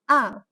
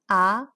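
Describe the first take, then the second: First: The pitch drops sharply and stops short. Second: The pitch climbs upward toward the end. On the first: "The fourth tone, also known as a descent tone" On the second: "the second tone, also known as rise tone"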